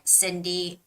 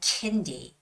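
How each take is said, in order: First: The name begins with an S sound. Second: The name begins with a K sound. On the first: The speaker calls it right. "but it's more like Cindy Wagner" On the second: The speaker calls it wrong. "you wouldn't say Kindy"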